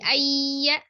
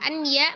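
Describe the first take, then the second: First: The n merges into a doubled y sound. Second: A distinct n sound comes before the y. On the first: "letak idgham bi gunnahnya" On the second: "nun sukun ketemu dengan ya-nya"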